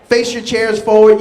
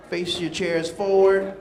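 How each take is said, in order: First: Said in the usual way. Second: Much softer, slower instruction; soft slow repeat. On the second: Shown as a demonstration. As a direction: say it again quietly and slowly. Repeated softly and slowly.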